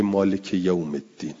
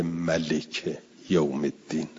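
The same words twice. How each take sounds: First: مالک said with a long first vowel, maa-lik; long a in maalik. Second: ملک said short and clipped, ma-lik, no long vowel; ملک with a short first vowel, contrasted with مالک; short a in malik. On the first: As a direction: stretch the a in مالک clearly. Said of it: "نمیگه ملک یوم الدین". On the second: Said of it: "که بگه مالک یوم الدین". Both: Retold or imitated.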